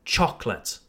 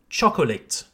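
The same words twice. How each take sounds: First: "chocolate" as CHOK-lət, two syllables; correct English pronunciation. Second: "chocolate" with an extra middle vowel, CHOK-o-lit; French learner's mispronunciation. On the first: Shown as a demonstration. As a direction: drop the second O in "chocolate". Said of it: "The real pronunciation then is". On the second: Retold or imitated. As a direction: imitate French students saying "chocolate" in three syllables. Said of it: "My French students often say".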